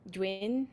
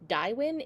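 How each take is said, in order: First: The main vowel sounds like 'oo'. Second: The main vowel sounds like 'eye'. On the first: The speaker calls it right. "you do want to actually emphasize that oo part" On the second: The speaker calls it wrong. "So it's not like Daiwin"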